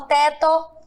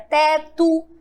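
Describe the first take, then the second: First: The final vowel sounds like 'oh'. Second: The final vowel sounds like 'oo'. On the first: The speaker calls it wrong. "Eu não falo" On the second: The speaker calls it right.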